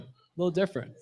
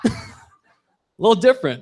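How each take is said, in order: First: Quiet repeat. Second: Slow drawn-out line. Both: Shown as a demonstration.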